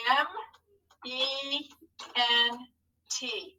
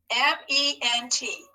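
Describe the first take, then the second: First: M... E... N... T, pausing after each letter; spelling for writing. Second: Said in the usual way. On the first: Shown as a demonstration. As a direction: dictate M, E, N, T softly, one at a time. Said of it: "tell our hand what to write". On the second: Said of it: "Who can spell ment?".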